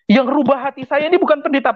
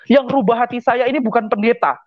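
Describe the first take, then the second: First: Higher and faster on "Yang rubah hati saya ini bukan pendeta"; emphatic repeat. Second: Said in the usual way. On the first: Real, not acted. Insisting to the congregation that not the pastor changed him, emphatic. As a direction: drive the repeat home, pushing "ini" harder.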